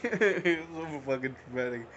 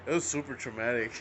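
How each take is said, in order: First: Laughing. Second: Said in the usual way. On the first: Real, not acted. Laughs while retelling trauma.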